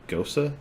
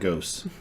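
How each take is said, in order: First: The word is said as two syllables, Go-sa. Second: The word is said as one syllable, like ghost. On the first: The speaker calls it right. "the guy went, "Gosa."" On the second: The speaker calls it wrong. "Let me get that ghost"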